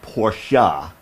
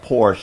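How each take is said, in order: First: The name is said the careful, formal way. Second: The name is said the relaxed, casual way. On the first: This is the proper but snobbish-sounding pronunciation. "to pronounce it Porsche was a little snobby" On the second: This is the habitual everyday pronunciation. "that's why I call it Porsche"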